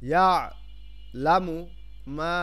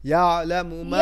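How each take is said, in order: First: The word is broken into separate syllables. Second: The word is said smoothly in one go.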